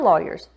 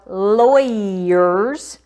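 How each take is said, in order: First: It is said in a standard, non-Southern accent. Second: It is said in a Southern Mississippi accent.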